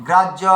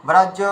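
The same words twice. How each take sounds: No difference in how they are said.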